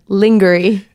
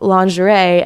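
First: The word is distorted, sounding like dungarees. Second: The word is said in its usual way. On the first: "It sounded like dungarees or something" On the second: "the pronunciation of lingerie"

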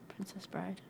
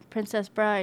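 First: It is said quietly. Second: It is said loudly.

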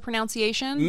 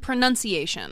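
First: The second syllable sounds like 'noun'. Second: The second syllable sounds like 'nun'. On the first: The speaker calls it wrong. "Did I say pronunciation again?" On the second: The speaker calls it right. "At least I caught myself this time"

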